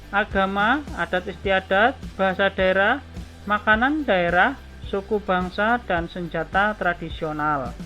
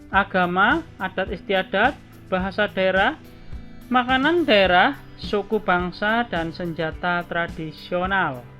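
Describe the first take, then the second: The two takes are said the same way.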